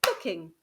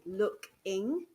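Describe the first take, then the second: First: Said in the usual way. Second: Looking, syllable by syllable; syllable chunks. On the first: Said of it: "your child would say looking". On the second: Shown as a demonstration. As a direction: say looking as look, ing, slowly. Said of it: "break words into syllable chunks".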